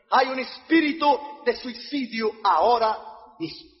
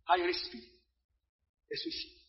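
First: Slow, firm pronouncement; solemn, voiced warning from the pulpit; preacher's declaration. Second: Very soft, fading to a whisper; hushed, ominous repeat; hushed warning. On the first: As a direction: declare it slowly to the congregation. Preacher declares, then repeats it hushed. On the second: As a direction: let it sink away almost voiceless. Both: Real, not acted.

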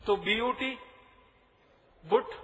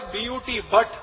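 First: "बुट" with short oo, rhyming with put; deliberately mispronounced BUT. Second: "बट" with short uh vowel; usual BUT pronunciation. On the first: Speaker mocks English logic to audience, "बुट" rhyming with put. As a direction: spell it, pause, then land on "बुट" with oo. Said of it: "यही होना चाहिए". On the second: Speaker quizzes audience on English spelling, "बट" with short uh. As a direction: spell it out, then "बट" with uh. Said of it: "उच्चारण तो एक ही होना चाहिए". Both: Shown as a demonstration.

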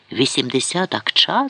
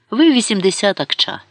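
First: Incredulous echo question, rising on «акча»; mild outcry. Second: ВИ pitched high, then falling through «вісімдесят акча»; blunt verdict. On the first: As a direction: repeat «Вісімдесят акча» as an outraged question, without shouting. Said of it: "закричав він". (стриманий обурений вигук-запитання) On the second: Courtier bluntly prices his ruler. (категорична відповідь зі спадом на «акча») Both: A narrator's reading.

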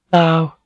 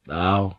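First: High-pitched female greeting; acted lady's voice, pitched up; woman's voice. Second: Softer male reply; acted man's quiet greeting. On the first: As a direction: voice her in a lifted register. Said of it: "she said". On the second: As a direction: answer softly as the man. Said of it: "he said". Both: A narrator's reading.

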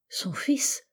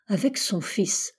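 First: Whispered question rising high; stunned whisper. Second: Said in the usual way. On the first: A narrator's reading. Narrator echoing her words in disbelief, whispered. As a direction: breathe it out in disbelief.

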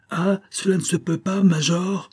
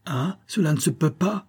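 First: Put-on much higher, trembling boy's cry; the boy crying out at the major, very high. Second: Put-on higher, shaky boy's protest; a hurt boy protesting, high and trembling. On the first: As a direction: push it higher still, trembling. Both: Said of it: "de sa voix tremblante et aiguë".

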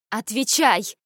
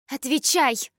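First: Sharp raised bark; barked order. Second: Shouted order. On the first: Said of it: "рявкнула я". (резкий окрик) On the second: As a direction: yell the demand at him. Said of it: "выкрикнула Суён". (громкий выкрик) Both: A narrator's reading.

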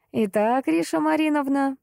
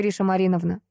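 First: Lofty, pompous address; высокопарно. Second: Said in the usual way. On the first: Acted. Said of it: "также высокопарно". (высокопарно и торжественно) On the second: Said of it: "repeated address, said plain".

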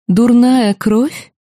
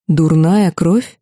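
First: Mild mock-tender echo with hidden menace; deceptively gentle. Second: Slow, stunned repeat of "Дурная кровь?" with a rise at the end; disbelieving echo of the insult; slow incredulous echo. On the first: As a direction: purr the insult back as if kindly, a trap behind it. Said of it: "обманчиво ласковым голосом". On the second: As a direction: drag "Дурная кровь?" out as if you can't believe it. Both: A narrator's reading.

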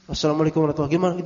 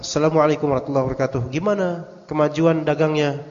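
First: Very fast, clipped repeat of the salam; hurried repeat of the message greeting; rattled-off greeting. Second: Fast, run-together salam as if typed out; quick mechanical message greeting; rattled-off greeting. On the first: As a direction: fire off the same greeting again, even faster. Repeating the same WhatsApp greeting. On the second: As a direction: rush through the greeting like a routine message. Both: Retold or imitated.

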